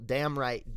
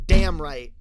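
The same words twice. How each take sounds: First: Said in the usual way. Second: Loud, punched DAMN; emphatic. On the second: Pretend. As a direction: belt it out with conviction. Emphatic repeat of same words.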